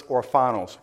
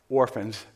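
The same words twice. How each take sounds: First: Orphanos said as or-FAI-nos, Greek style; Greek word. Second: Said in the usual way. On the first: Shown as a demonstration. Preacher giving the Greek word for orphans, orphanos pronounced or-fai-nos. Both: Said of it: "That word translated in the Greek".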